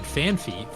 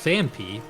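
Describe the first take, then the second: First: The second syllable begins with an f sound. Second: The second syllable begins with a p sound. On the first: The speaker calls it wrong. "I've said Fanpy for years uh, because I assumed that it was P H A N P H Y" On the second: The speaker calls it right. "it's Fanpy"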